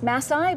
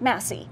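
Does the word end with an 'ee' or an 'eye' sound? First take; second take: eye; ee. First: The word ends with an 'eye' sound. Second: The word ends with an 'ee' sound. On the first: The speaker calls it wrong. "We would think it's Massai" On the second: The speaker calls it right. "but it's Massey"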